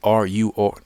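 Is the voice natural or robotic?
robotic. It is said in a put-on robotic voice.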